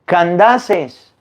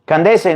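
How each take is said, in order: First: "Candaces" drawn out as can-DA-ses; slow, stressed DA in "Candaces"; corrected pronunciation. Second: "Candace" misread as can-DE-se; the rejected "Candace", quick, with e in the middle; wrong pronunciation. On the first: Priest correcting the lector, "Candaces" slow with stressed DA, corrective. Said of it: "se dice". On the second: Priest quoting the lector's slip, "Candace" as can-DE-se, corrective. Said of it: "no se dice Candace". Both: Retold or imitated.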